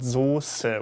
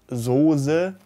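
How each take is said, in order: First: The middle s is a sharp s. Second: The middle s is not a sharp s. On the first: The speaker calls it right. "with the good old German S Z" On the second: The speaker calls it wrong. "Not Soße"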